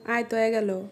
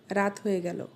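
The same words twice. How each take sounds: First: Regional Sirajganj Bengali accent; Sirajganj dialect. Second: Standard Bengali pronunciation. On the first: Teacher translating into local speech, Sirajganj dialect. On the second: Teacher giving the standard version for comparison, standard Bengali. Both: Shown as a demonstration. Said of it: "শুদ্ধ ভাষা versus সিরাজগঞ্জের আঞ্চলিক ভাষা".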